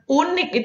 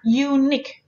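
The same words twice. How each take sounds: First: The word begins directly with an oo vowel. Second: The word begins with a y sound. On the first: The speaker calls it wrong. "bukan unik. Itu unik bahasa Indonesia" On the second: The speaker calls it right. "Jadi ada y-nya"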